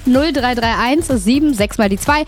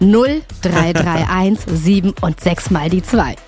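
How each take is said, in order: First: The number is read at normal quick pace. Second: The number is read very slowly.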